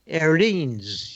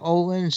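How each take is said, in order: First: The name is said with a Swedish-style vowel. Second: The name is said with an English-style vowel. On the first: The speaker calls it right. "Swedish pronunciation" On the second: The speaker calls it wrong. "It's not Olin's"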